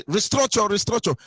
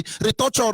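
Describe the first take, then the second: First: "restructure" said fully as "ris-TRUC-ture", with the k sound; corrected pronunciation. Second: "Restructure" said as "retoucher", the middle syllable dropped; mocking mispronunciation. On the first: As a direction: sound every part of "restructure". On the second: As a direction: squeeze "Restructure" into "ri-TOU-cher". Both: Shown as a demonstration. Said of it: "restructure, sorry".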